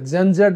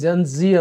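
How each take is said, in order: First: The last letter is pronounced as zed. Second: The last letter is pronounced as zee. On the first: "gen జెడ్ అనొచ్చు"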